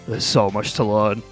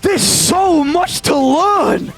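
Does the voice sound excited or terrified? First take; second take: terrified; excited. First: It is said in a frightened, dreading voice. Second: It is said in a thrilled, eager voice. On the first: The amount to learn feels overwhelming. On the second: The amount to learn feels like an opportunity.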